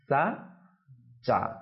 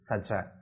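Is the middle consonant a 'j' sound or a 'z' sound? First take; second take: J sound; Z sound. First: The middle consonant is pronounced like a j. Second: The middle consonant is pronounced like a z. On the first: The speaker calls it right. "এখানে উচ্চারণটা কি হবে?" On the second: The speaker calls it wrong. "জিমের উচ্চারণটা জায়ের মতো করে ফেলি"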